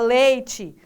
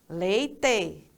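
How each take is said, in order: First: It is said in a Tocantins regional accent. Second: It is said in a southern Brazilian accent. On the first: This is how people here say it. "E aqui fala" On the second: This is how people in the South say it. "lá no Sul também a, a, as pessoas falam assim"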